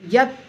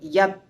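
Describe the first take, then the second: First: The final t is fully and clearly sounded. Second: The final t is barely audible, almost silent. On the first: The speaker calls it wrong. "यत नहीं बोलना है" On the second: The speaker calls it right. "यत करीब करीब सुनाई नहीं देता है"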